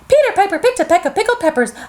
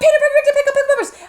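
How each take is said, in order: First: It is said at medium speed. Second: It is said very fast.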